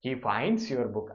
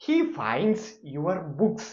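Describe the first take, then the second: First: Very slow repeat. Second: Very slow, higher and louder; slow emphatic example. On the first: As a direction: say it again slowly. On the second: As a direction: announce the final example. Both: Shown as a demonstration. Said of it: "അവസാനത്തെ example".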